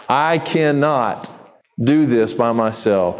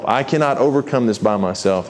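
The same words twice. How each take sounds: First: I cannot, drawn out slowly with a pause before do this by myself; slow, weighted admission. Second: Said in the usual way. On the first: Shown as a demonstration. Preacher models a humble prayer, I cannot said slowly and heavily. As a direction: let I cannot hang slowly before finishing. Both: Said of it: "Go to God and say".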